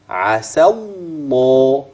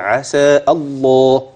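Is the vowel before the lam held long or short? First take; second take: short; long. First: The vowel runs straight into a doubled lam. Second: The long vowel before the lam is pronounced. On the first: The speaker calls it right. "الألف المدية اللي في آخر عسى لن تسمعها" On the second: The speaker calls it wrong. "البعض بيقول عسى الله، ما أنا لسه قايل في حرف مد فهيبينه"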